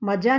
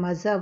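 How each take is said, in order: First: The middle consonant is a plain j sound. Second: The middle consonant is a buzzing z sound. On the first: The speaker calls it wrong. "मज़ा नहीं बोलेंगे" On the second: The speaker calls it right. "मज़ा बोलेंगे"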